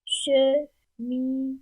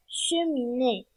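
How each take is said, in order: First: "Cheminée" lent, détaché en che-mi-née; syllabes frappées. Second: Said in the usual way. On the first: Shown as a demonstration. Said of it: "les syllabes du mot cheminée". ("Cheminée" scandé syllabe par syllabe, lentement)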